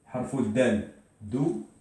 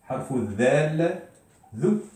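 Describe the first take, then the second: First: Said in the usual way. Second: Slow down and voice "Dal" as ð; drawn-out dhal. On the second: Shown as a demonstration. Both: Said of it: "comment on doit le prononcer".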